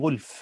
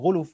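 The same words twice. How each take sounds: First: The L is vowelless: ghulf. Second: The L carries a u vowel: ghuluf. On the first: The speaker calls it right. "وأجود القراءتين غلف بتسكين اللام" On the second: The speaker calls it wrong. "غلف بالضم اللام في غير المتواتر"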